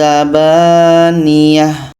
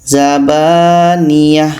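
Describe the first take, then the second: No difference in how they are said.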